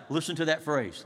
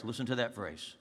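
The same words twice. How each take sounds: First: Said in the usual way. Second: Much softer and lower, drawing them in; hushed insistent repeat; dropped soft repeat. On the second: Shown as a demonstration. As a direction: say it again almost under the breath.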